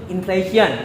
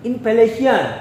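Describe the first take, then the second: First: It is said with English pronunciation. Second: It is said with Korean pronunciation. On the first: "Inggrisnya inflation" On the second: "dalam Koreanya inflation"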